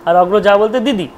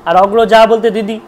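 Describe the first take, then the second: No difference in how they are said.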